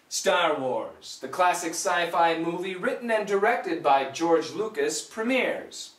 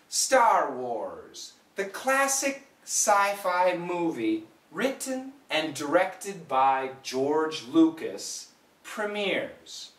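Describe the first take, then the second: First: The sentence is read at a faster pace. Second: The sentence is read at a slow pace. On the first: "The second time, a little bit faster" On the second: "The first time, slowly say it with me"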